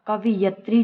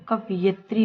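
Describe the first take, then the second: First: "कवियत्री" as "ka-vi-yat-ri", punched; wrong vowel order. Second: "कवयित्री" as "ka-va-yit-ri"; correct vowel order. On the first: Teacher rejects the mistake, "vi-yat" in "कवियत्री". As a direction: put i before y in "कवियत्री". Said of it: "नहीं होता है". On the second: Teacher gives the correction, "va-yit" in "कवयित्री". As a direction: put short i after y in "कवयित्री". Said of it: "छोटी की मात्रा आती है". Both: Shown as a demonstration.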